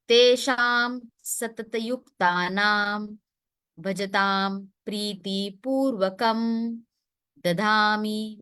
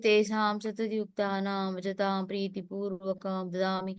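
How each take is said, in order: First: The words are articulated clearly with the mouth open. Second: The words are mumbled with the mouth barely open. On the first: The speaker calls it right. "try to stress on the words in a very proper way" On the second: The speaker calls it wrong. "you're just saying it, but your the, the purpose is not served"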